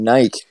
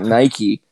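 First: The word is said the Irish way. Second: The word is said the American way. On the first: This is how the Irish people said it. "they were saying Nike" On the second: This is how the speaker says it. "and not Nike"

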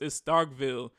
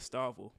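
First: The middle k sound is clearly pronounced. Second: The middle k sound is dropped.

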